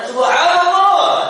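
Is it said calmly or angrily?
angrily. It is said angrily, with a raised voice.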